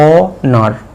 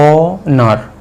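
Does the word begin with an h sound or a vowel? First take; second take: vowel; vowel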